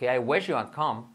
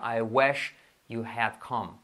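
First: Measured but linked-up English example; connected repeat. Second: Slow, word-by-word English example; slow model sentence. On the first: Teacher repeats the translation for learners, more connected. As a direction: run the words together, still unhurried. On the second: Teacher first models the translation for learners, slowly. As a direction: separate each word unhurriedly. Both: Shown as a demonstration.

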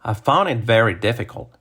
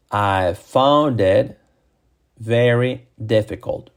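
First: Connected example sentence; natural-speed model sentence. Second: Very slow, separated words; slow model sentence. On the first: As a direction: say it in one smooth run. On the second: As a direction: stretch each word for learners. Same sentence, slowed for learners. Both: Shown as a demonstration.

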